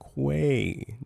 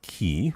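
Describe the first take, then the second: First: The word starts with a kw sound. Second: The word starts with a plain k sound. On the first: The speaker calls it right. "It's Quay" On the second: The speaker calls it wrong. "Not key"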